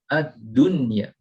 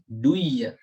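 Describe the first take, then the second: First: The n sound is clearly pronounced. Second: The n sound is merged away. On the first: The speaker calls it right. "kita membaca dengan menjelaskan nunnya" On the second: The speaker calls it wrong. "bukan duya, bukan"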